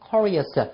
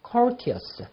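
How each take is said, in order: First: The t is softened into a quick r-like flap. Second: The t is pronounced as a clear t sound. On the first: "미국식 발음으로서는 curious" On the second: "영국식 발음으로서는 자, courteous"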